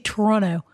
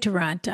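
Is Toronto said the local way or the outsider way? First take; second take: local way; outsider way. First: It is said the way locals say it. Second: It is said the way outsiders say it. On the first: This is how people from the city say it. "Or they say Toronto" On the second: This is how someone not from the city says it. "I say Toronto"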